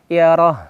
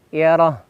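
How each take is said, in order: Both takes have the same delivery.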